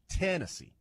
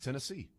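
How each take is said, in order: First: The stress is on the first syllable. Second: The stress is on the last syllable. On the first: "The emphasis on the first syllable here" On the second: "the last syllable is where you have the emphasis"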